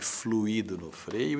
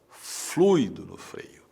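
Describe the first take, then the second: First: The stress falls on the second syllable, 'i'. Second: The stress falls on the first syllable, 'flui'. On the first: The speaker calls it wrong. "Não coloque fluido no freio" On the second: The speaker calls it right. "Coloque fluido"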